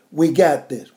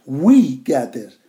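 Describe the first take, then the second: First: Said in the usual way. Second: We drawn out slow and louder; stress on We. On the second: Shown as a demonstration. Preacher telling the congregation it is We, stressing We. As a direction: lean hard on We, not I. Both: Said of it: "Not I got this".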